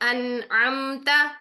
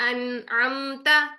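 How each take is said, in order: The two takes are said the same way.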